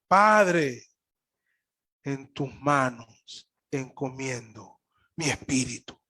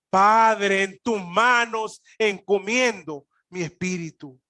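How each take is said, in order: First: It is said softly. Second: It is said loudly.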